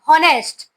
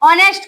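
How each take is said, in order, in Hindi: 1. यह शब्द h की स्पष्ट ध्वनि से शुरू होता है। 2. यह शब्द स्वर से शुरू होता है, h मौन है। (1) "एज अच्छे ह बोली कर उच्चारण करमा हॉनेस्ट तो इटा रॉन्ग ही जिबा" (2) "एज थिले भी एज रो काना साइलेंट रहसी"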